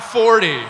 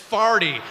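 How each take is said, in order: First: The first vowel sounds like 'for'. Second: The first vowel sounds like 'far'. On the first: The speaker calls it wrong. "not forty" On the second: The speaker calls it right. "It's farty"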